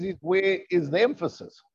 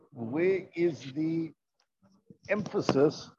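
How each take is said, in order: First: Said in the usual way. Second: Very slow, pause before emphasis; slow repeated question. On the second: Shown as a demonstration. Rabbi repeats the question to his class, slow and quietly emphatic. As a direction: drag it out, then hold a beat before emphasis.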